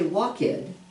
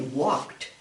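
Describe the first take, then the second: First: The ending is said as an extra syllable. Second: The ending is a single T sound. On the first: The speaker calls it wrong. "we don't say walk-ed" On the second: The speaker calls it right. "we say walked. Make it sound like a T"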